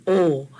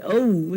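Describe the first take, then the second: First: O as one pure vowel, no glide; flat Hawaiian O. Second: O with an English glide into "oo"; wrong O. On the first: Teacher showing class the proper vowel, flat O. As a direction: hold O flat, without closing to "oo". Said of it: "Flat O". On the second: Teacher warning class this is not it, wrong O. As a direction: say O as a gliding "oh-oo". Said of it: "this is not an O". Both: Shown as a demonstration.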